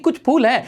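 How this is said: It is said in a positive, pleased tone. There are some flowers, which is good. "अभी तो हम positive तरीके से कह रहे हैं"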